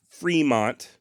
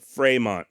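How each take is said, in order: First: Fremont said FREE-mont, slow, with the t sounded; anglicized pronunciation. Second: Fremont said fray-MON, with no t at the end; correct French pronunciation. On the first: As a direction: Fremont as plain American FREE-mont, drawn out. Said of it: "Not Fremont". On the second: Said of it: "the correct pronunciation of Fremont". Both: Shown as a demonstration.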